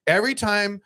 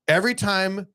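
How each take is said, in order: Both takes have the same delivery.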